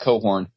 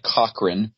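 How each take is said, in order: First: The name is said as Cohorn. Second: The name is said as Cochran. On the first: This is how the family says it. The speaker calls it right. "but they pronounce it Cohorn" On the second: This is how the spelling looks. The speaker calls it wrong. "it looks like Cochran"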